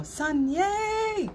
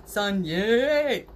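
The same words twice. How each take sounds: First: A squeaky, high-pitched cheer on yay. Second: A big, loud cheer on yay. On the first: Leading the friends in a new cheer, pitched high. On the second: Showing viewers how they should say it, loud cheer. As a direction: belt it out for everyone. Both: Shown as a demonstration. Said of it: "You should say it like that".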